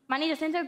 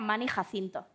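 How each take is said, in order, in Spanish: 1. El nombre se dice con pronunciación inglesa. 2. El nombre se dice con pronunciación española.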